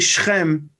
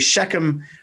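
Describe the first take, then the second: First: The name is said with Hebrew pronunciation. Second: The name is said with English pronunciation.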